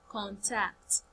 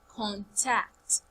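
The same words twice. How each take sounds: The two takes are said the same way.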